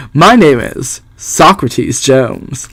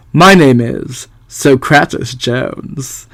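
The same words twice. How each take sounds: First: Socrates said SOK-ruh-teez; corrected pronunciation. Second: Socrates said soh-kraht-us; mispronounced name. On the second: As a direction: read Socrates wrongly as SOH-krat-es. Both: Shown as a demonstration. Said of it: "I think it's pronounced Socrates".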